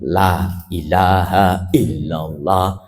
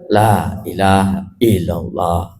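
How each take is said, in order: First: Every sound and vowel length is clearly articulated. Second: Some sounds and vowel lengths are dropped. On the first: The speaker calls it right. "hurufnya ada jelas, panjang pendeknya ada" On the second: The speaker calls it wrong. "Haknya hilang. Itu dikurangi"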